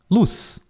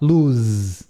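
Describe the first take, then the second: First: The word ends with a hissing S sound. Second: The word ends with a buzzing Z sound. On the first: The speaker calls it right. "A gente fala com, com som de S no final" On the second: The speaker calls it wrong. "Ninguém fala luz"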